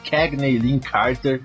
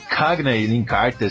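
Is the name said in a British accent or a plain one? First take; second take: plain; British. First: The name is said without a British accent. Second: The name is said in a British accent.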